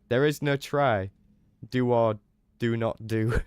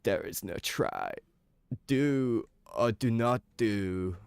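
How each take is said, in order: First: It is said in his normal speaking voice. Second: It is said in a slow, stoned put-on voice.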